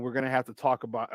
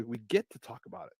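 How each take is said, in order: First: Said in the usual way. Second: "get" picked out as a correction; stress on GET. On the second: Real, not acted. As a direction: lean on "get" in place of "have", softly. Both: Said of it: "not we have to".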